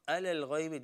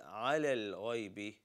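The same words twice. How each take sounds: First: Ala begins with a plain vowel. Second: Ala begins with a deep throat sound. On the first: The speaker calls it wrong. "It's not ala al-ghaybi" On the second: The speaker calls it right. "this is ala al-ghaybi"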